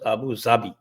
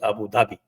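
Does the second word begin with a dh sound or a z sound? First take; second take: z; dh. First: The second word begins with a z sound. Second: The second word begins with a dh sound. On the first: This is how it is said in Urdu. "Urdu में it is pronounced as" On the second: This is how everyone else says it. "Otherwise everybody says it is"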